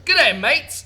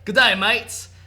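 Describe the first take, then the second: First: It is said in the speaker's normal voice. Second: It is said in a put-on British-Australian accent.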